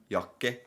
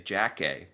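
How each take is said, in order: First: The word begins with a Y sound. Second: The word begins with an English J sound. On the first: This is the Norwegian way to say it. The speaker calls it right. "the J sound is like instead of j, it's a y" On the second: This is how most Americans would say it. The speaker calls it wrong. "most Americans will say Jacke"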